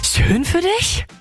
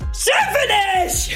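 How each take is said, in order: First: It sounds shocked, with exaggerated surprise. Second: It sounds angry and forceful.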